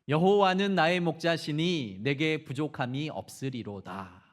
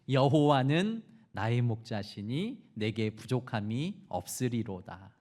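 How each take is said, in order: First: The voice sounds calm and steady. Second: The voice sounds almost tearful and shaky.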